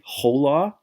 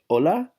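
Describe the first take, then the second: First: The word starts with an audible h sound. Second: The word starts directly with the vowel sound. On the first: The speaker calls it wrong. "That's why we don't say hola" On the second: The speaker calls it right. "We say hola"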